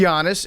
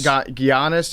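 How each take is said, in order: First: The name is said smoothly in the standard way. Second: The name is deliberately mangled and stumbled over. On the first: It gives the name its proper respect. The speaker calls it right. "it's Giannis" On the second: It mocks the name on purpose. The speaker calls it wrong. "I think we would go like Ga- Giannis"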